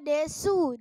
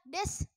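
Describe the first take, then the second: First: The final u is fully pronounced. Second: The final u is nearly silent.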